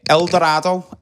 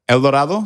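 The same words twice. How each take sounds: First: It is said in a strong Scouse accent. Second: It is said in a standard Spanish accent. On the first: "in his full Scouse" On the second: "how they're supposed to be said"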